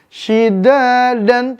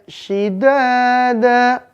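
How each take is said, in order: First: The word ends with a short a and n. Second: The word ends with a long a vowel. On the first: This is the written form with tanwin. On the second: This is how it is read when stopping.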